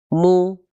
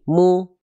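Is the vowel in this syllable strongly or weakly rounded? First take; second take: weakly; weakly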